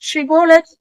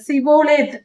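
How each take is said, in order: First: The word begins with a 'sh' sound. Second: The word begins with an 's' sound. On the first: The speaker belongs to the right tribe. The speaker calls it right. "அந்த ஷி என்ற உச்சரிப்பு" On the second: The speaker belongs to the enemy tribe. The speaker calls it wrong. "அவர்கள் சிபோலேத் என்று சொல்வார்கள்"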